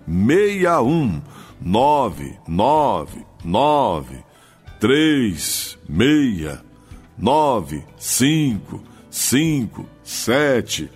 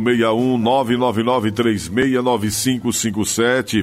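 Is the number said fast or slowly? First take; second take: slowly; fast. First: The number is said slowly, digit by digit. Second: The number is said at normal, quick speed.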